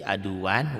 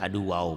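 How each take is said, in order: First: The word ends with a clear n sound. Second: The final n merges into a w sound. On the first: "Tanwin patah tain ketemu waw idgham bigunah" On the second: "berubah menjadi aduwaw masuk ke waw"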